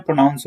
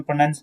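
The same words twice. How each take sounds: First: "प्रोनाउंस" said with "noun", as pro-nowns; correct pronunciation. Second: "प्रोनाउंस" said as pro-nuns, without "ow"; mistaken pronunciation. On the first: Teacher modelling the verb, "प्रोनाउंस" with an "ow" vowel. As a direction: say "प्रोनाउंस" with a full "ow". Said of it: "उसमें प्रोनाउंस होता है". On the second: Teacher showing what not to say, "प्रोनाउंस" as pro-nuns. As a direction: say "प्रोनाउंस" wrongly, with "nun". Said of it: "उसमें प्रोनाउंस नहीं होता". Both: Shown as a demonstration.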